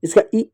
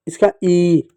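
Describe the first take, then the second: First: "ई" said short, as a quick "i"; short "ई" set against the long one; short vowel. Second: "ई" held long, a drawn-out "ee"; long "ई" set against the short one; long vowel. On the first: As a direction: keep the "ई" brief, like इ. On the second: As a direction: stretch the "ई" steadily. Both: Shown as a demonstration. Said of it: "फिर आता है बड़ी ई".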